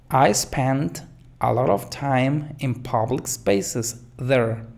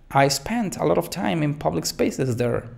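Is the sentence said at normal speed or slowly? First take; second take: slowly; normal. First: The sentence is said more slowly. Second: The sentence is said at normal speed.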